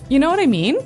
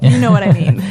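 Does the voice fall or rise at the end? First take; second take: rise; fall. First: It is said as a question, rising. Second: It is said as a statement, falling.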